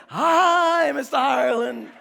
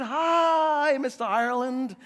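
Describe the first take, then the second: First: Loud, drawn-out mock chorus of children; pre-K kids. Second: Lightly imitated teacher's drawn-out greeting; pre-K teacher. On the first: Pre-K kids all greet a classmate's dad, loud mock chant. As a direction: imitate a class calling out a greeting. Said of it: "Then the kids, all of them would say". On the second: Teacher greets a dad at pre-K pickup, mock sing-song. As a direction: talk to an adult as to a small child. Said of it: "the teacher would talk to you as you were a pre-K".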